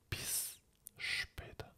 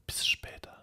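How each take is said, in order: First: A very short break separates the two words. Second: The two s sounds are run together. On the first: The speaker calls it right. "Il y a une séparation entre les deux. Même si elle est très très courte" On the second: The speaker calls it wrong. "Ce n'est pas bis später"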